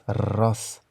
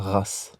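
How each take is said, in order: First: The R is rolled with a tongue trill. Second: The R is not rolled with a tongue trill. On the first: The speaker calls it right. "c'est plutôt un R roulé euh, espagnol" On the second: The speaker calls it wrong. "et pas ras"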